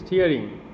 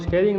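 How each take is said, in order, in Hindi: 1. पहला स्वर 'steer' जैसा सुनाई देता है। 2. पहला स्वर 'stay' जैसा सुनाई देता है। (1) "exactly the word is स्टीयरिंग" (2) "उसको स्टेयरिंग नहीं बोलते"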